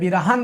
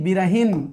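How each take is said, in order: First: No short i vowel comes before the final n. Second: A short i vowel comes before the final n. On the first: The speaker calls it wrong. "ऐसे बिरहन नहीं" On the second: The speaker calls it right. "ये सब में छोटी मात्रा होती है"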